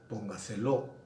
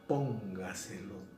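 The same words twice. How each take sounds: First: The stress falls on a later syllable. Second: The stress falls on the first syllable. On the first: The speaker calls it wrong. "no decimos póngaselo" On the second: The speaker calls it right. "decimos póngaselo"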